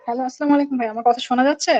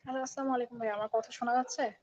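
First: Repeated a bit louder. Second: Faint, far from the mic; barely audible greeting; too quiet. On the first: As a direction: speak up for the caller. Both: Real, not acted. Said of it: "একটু জোরে বলতে হবে ভাই।".

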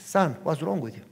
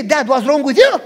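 First: Said in the usual way. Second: Loud, raised-pitch comeback; acted-out indignant son, loud and high; exasperated retort. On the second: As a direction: throw the question back, shouting. Retort he was ready to say.

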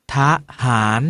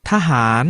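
First: ทะหาร with a short half-stressed ทะ before หาร; pronounced ทะหาร. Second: Said in the usual way. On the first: Shown as a demonstration. Teacher shows students the reading ทะหาร. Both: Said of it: "ออกเสียงว่า".

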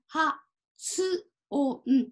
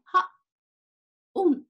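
First: 発音 beat by beat as ha, tsu, o, n; fully sounded tsu. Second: 発音 as ha, a silent gap, then on; silent small tsu. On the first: Teacher modelling 発音 for learners, every sound separate and the tsu fully said. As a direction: give つ in 発音 its own clear syllable between は and お. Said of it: "しっかりつと発音します". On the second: Teacher showing what a small tsu would do, 発音 with a silent gap for つ. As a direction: leave the つ of 発音 unsaid, just a pause between は and おん. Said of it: "小さいつは、あの、言いませんね". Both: Shown as a demonstration.

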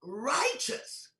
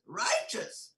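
First: Said in the usual way. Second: Righteous whispered with a rise; whispered, wondering Righteous. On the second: Shown as a demonstration. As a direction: breathe Righteous as a stunned question. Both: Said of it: "You know what I'm saying?".

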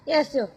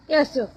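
The two takes are said the same way.

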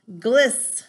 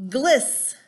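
Both takes have the same delivery.

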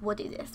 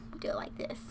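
First: Said in the usual way. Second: Breathy whisper to herself. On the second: Real, not acted. Talking to herself while arranging the sims, whispered. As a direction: whisper it under your breath.

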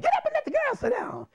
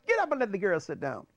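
First: Very high, mock-furious command; high-pitched caricatured outburst; irate principal's repeated order. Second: Higher, lightly acted order; mildly voiced retold command; retold principal's order. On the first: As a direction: screech the repeat as the enraged principal. Principal repeats order while beating pupil. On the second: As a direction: give the instruction as the principal, first time. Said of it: "he say".

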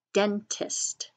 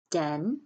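First: Said in the usual way. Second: "Den-tist" split with a long pause; slow, broken-up "Den-tist" for early readers; syllable by syllable. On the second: Shown as a demonstration. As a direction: sound out "Den-tist" in two separate beats. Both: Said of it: "What are your two syllables?".

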